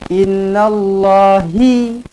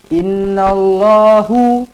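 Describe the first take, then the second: First: The word ends with the vowel i. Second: The word ends with the vowel u. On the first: "jangan jadi innallahi" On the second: "jangan jadi innallahu"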